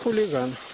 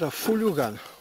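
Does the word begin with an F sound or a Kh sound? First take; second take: Kh; F. First: The word begins with a kh sound. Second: The word begins with an f sound.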